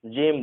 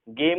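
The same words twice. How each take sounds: First: जेम with a soft j sound as in gem; right soft g. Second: गेम with a hard g as in game; wrong hard g. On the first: Teacher gives students the correct reading, soft j. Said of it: "गेम नहीं बोलते". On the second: Teacher shows students the wrong reading, hard g. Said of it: "इसे जेम बोलते हैं". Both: Shown as a demonstration.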